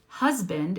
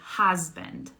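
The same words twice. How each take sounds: First: The first vowel is a short central uh. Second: The first vowel is an open ah. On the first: The speaker calls it right. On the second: The speaker calls it wrong.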